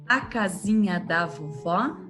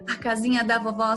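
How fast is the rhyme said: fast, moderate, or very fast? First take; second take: moderate; very fast. First: It is recited at a moderate speed. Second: It is recited at a very fast speed.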